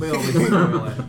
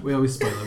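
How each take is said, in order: First: Laughing through the words; giggly, teasing repeat. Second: Said in the usual way. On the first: Real, not acted.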